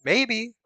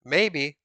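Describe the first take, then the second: First: Maybe pitched high and bright; high questioning maybe. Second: Said in the usual way. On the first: Shown as a demonstration.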